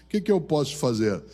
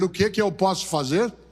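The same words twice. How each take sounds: First: It sounds weary, discouraged and trailing off. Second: It sounds ready and eager, a real question.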